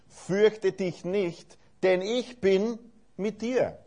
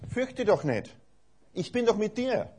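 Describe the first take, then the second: First: It is said in a reassuring, encouraging tone. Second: It is said in a surprised, exasperated tone.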